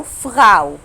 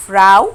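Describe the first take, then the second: First: فراو with a throaty German R; alternative pronunciation. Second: فراو with a front R, drawn-out "ow"; model pronunciation. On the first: Teacher offers the other way to say it, throaty R. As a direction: say فراو loudly as "fghow", R in the throat. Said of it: "فراو أو فراو". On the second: Teacher models the word for learners, front R. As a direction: say فراو loudly as "frow", tongue-tip R. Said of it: "نطقت حرف الأو إزاي". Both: Shown as a demonstration.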